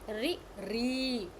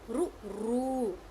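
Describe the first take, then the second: First: The r is followed by an i vowel. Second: The r is followed by a u vowel. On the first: "Some people also pronounce it ri ri" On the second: "some people say ru ru"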